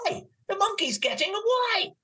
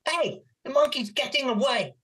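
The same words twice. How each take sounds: First: The line is said with more excitement. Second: The line is said flatly, without excitement. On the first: The speaker calls it right. "No, do it like this" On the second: The speaker calls it wrong. "She's like"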